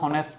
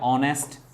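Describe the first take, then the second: First: The word begins with an audible h sound. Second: The word begins directly with a vowel sound. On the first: "এটাকে কেউ আমরা হনেস্ট বয় বলি" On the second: "এটাকে বলি যে অনেস্ট"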